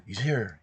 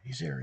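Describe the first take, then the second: First: Said in the usual way. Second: Soft, high, hushed excited aside; hushed excited murmur. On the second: Retold or imitated. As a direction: whisper the news so he can't hear. Excited crowd spotting the star.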